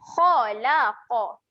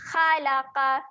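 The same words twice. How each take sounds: First: The kha and qaf are heavy and thick. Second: The kha and qaf are light and thin. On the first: The speaker calls it right. "kita nampak huruf kha dan qaf ni huruf tebal" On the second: The speaker calls it wrong. "Bunyi yang salah"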